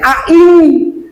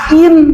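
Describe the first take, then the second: First: The final n is hidden in a nasal hum. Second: The final n is pronounced fully and clearly. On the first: The speaker calls it right. "Maka membacanya ain" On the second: The speaker calls it wrong. "Jangan dibaca ain"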